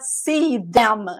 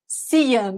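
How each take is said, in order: First: 'Them' is fully pronounced as a separate word. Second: 'Them' is reduced and linked to 'see'. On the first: The speaker calls it wrong. "It's not see them" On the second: The speaker calls it right. "when you connect everything, it's not like that"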